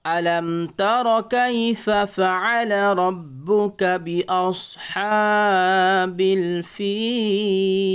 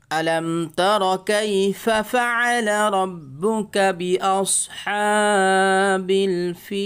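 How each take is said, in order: First: Slow, drawn-out Quranic chanting of بأصحاب الفيل; melodic recitation. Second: Slow, drawn-out Quranic chanting of فعل and الفيل; melodic recitation. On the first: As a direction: chant the verse slowly and higher, stretching every vowel. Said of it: "আরেকবার পড়েন". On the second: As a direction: chant the verse slowly and higher, stretching the vowels. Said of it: "reading কেমন হয় দেখেন". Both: Shown as a demonstration.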